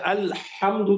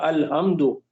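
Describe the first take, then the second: First: The h is tight, from the middle throat. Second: The h is plain, from the lower throat. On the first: All praise. The speaker calls it right. "दरमियानी हलक़ से निकलता है" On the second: Putting out a fire. The speaker calls it wrong. "अगर दरमियानी हलक़ के बजाय यहाँ से अदा किया"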